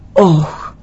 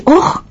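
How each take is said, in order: First: Imitated echo of a cry; echo coming back. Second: High-pitched yelp "Όχ!"; shouted cry of pain. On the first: The mountains return the boy's cry, echo. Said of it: "ξαναεπιστρέφεται αυτό το". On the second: Retold or imitated. Father telling of his son's fall in the mountains, shouted cry. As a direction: cry out as a little boy who fell. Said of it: "και φωνάζει".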